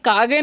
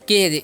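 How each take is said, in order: First: It has a long 'aa' and a hard 'g' ending. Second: It has an 'ay' vowel and a soft 'j' ending. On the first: The speaker calls it wrong. "इसे कागे नहीं पढ़ना है" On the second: The speaker calls it right. "इसे पढ़ना है केज"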